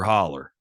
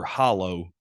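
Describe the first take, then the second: First: The word ends in an 'er' sound. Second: The word ends in an 'oh' sound. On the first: This is how people say it locally. "we don't say hollow here" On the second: This is how the name is written. "It actually says Porter Hollow Hooligan"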